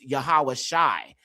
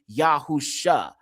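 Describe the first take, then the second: First: The name has a 'wa' sound and 'sha'. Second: The name has no 'wa' sound, just 'sh'. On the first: The speaker calls it wrong. "y'all literally pronounce it with the wa sound" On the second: The speaker calls it right. "It makes the sh sound only"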